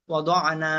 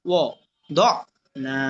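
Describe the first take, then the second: First: Said in the usual way. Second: ওয়া, দোয়া, না as separate pieces with pauses; broken-up pronunciation. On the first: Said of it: "এরপর আপনার উচ্চারণটা পড়বেন". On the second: Shown as a demonstration. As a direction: break it apart: ওয়া... দোয়া... না. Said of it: "বাঙ্গা উচ্চারণটা পড়বেন". (ভেঙে ভেঙে ওয়া, দোয়া, না উচ্চারণ)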